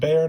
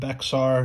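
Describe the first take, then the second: First: It is one syllable, sounding like 'bear'. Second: It is two syllables with an x sound. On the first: The speaker calls it right. "it is pronounced Bear" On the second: The speaker calls it wrong. "not Bexar"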